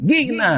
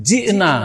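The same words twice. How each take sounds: First: গি'না with a hard g, higher; mock Egyptian saying গি'না; Egyptian mispronunciation. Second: জি'না with a clear j sound; correct জ sound. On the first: Teacher mocks an Egyptian misreading the Quran, pitched higher. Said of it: "এখন এক মিশরী যদি বলে". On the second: Shown as a demonstration. Teacher shows the correct Quran reading, stressed. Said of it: "ফাকাইফা ইযা".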